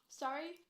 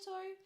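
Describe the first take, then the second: First: "Sorry" with an open A, as in "sar-ee"; American-style sorry. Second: "sorry" with a long O, as in "sore-ee"; Canadian-style sorry. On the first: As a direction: open the first vowel of "Sorry" to "sah", rising as a question. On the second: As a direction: round the first vowel of "sorry" to "sore". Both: Shown as a demonstration. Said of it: "how we say sorry".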